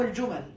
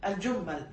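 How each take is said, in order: First: Second الجمل with a short single M; without gemination. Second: First الجمل with a held double M; doubled M. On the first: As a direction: say الجمل as "al-jumal". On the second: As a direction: say الجمل as "al-jummal". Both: Shown as a demonstration. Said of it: "بالتشديد وبالتخفيف".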